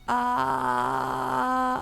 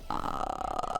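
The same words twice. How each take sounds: First: It is a clear voice with a pitch. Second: It is a creaky fry with no pitch.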